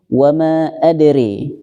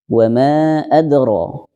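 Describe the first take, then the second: First: The last vowel is bent toward an e sound. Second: The last vowel is an open a sound. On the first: This is the Shu'bah reading. "Riwayat Syu'bahnya itu nanti ketemu" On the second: This is the Hafs reading. "kita riwayat Hafiz"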